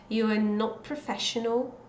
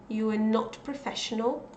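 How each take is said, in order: No difference in how they are said.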